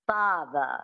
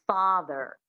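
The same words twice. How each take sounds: First: FATHER ending in a schwa, no R; dropped R. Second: FATHER with a clear American R at the end; American rhotic R. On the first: Coach showing transatlantic, father without R. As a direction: drop the R in FATHER to an unstressed uh. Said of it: "you drop the R and you make it a schwa". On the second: Coach showing standard American, father with rhotic R. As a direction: sound the final R in FATHER. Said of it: "standard American, you'd go father". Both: Shown as a demonstration.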